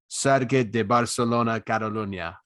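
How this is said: It is said in a Spanish accent. "if I was going to talk like a Spanish man"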